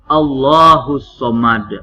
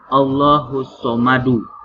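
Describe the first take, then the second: First: The last word stops on its final consonant. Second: The last word ends with an added vowel. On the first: The speaker calls it right. "hukumnya qalqalah kubro" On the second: The speaker calls it wrong. "bukan Allahus Somadu"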